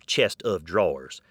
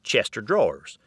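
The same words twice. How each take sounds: First: The of is said clearly as a word. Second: The of is blended into chester drawers. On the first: The speaker calls it right. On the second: The speaker calls it wrong. "Closely aligned with this"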